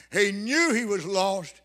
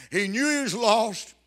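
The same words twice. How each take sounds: The two takes are said the same way.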